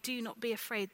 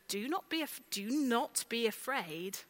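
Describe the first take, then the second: First: Said in the usual way. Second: Harsh rule from above; stern command. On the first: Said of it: "a different way of saying". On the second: Shown as a demonstration. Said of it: "the way we might listen to these words".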